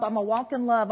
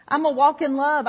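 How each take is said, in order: First: Said in the usual way. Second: I'm a walk in love pushed up, louder and firmer; louder resolve. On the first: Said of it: "and I'd say". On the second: Retold or imitated. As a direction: insist on it harder. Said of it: "am I the only one ever did this?".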